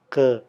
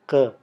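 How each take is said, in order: Both takes have the same delivery.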